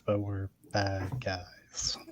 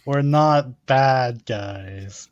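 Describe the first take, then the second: First: Very slow, hushed whisper; whispered aside. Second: Very slow, drawn-out declaration; slow, deliberate claim. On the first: Hushed contradiction of the previous claim. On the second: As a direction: stretch every word out deliberately. Player contrasts claim with slow aside. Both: Acted.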